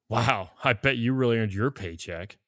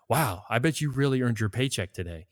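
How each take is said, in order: First: It sounds sarcastic and mocking. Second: It sounds sincere and appreciative.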